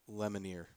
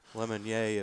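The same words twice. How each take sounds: First: The name is said with an English pronunciation. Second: The name is said with a French pronunciation. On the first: "If it's not, it's Lemonnier" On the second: "If I'm French, it's Lemonnier"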